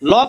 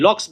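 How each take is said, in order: First: The name ends on k, with no s. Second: The name ends with an added s sound. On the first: The speaker calls it right. "লক আছেন, John লক" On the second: The speaker calls it wrong. "উনি লক্স বলেন। লক্স বলতে কেউ নাই পৃথিবীতে।"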